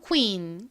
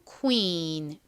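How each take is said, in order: First: The word is said quickly as one unit. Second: The word is drawn out slowly. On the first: "빨리 발음하면" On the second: "천천히 발음하면"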